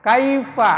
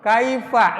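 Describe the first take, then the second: The two takes are said the same way.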